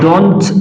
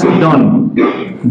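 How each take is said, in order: First: The final t sound is pronounced. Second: The final t sound is dropped. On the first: "instead of don't" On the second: "you pronounce done"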